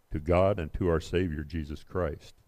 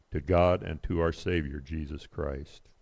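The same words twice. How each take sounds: No difference in how they are said.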